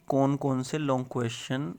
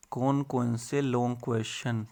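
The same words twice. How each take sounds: The two takes are said the same way.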